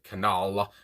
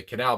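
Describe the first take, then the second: First: "canal" with a drawn-out, emphasized second syllable, like "ca-NAWL"; imitated pronunciation. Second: Said in the usual way. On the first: Reviewer mimicking how the singer said it, "canal" stretched to "ca-NAWL". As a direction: lean on the end of "canal", imitating the singer's broad vowel. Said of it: "emphasis on the word". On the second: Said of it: "I would say canal".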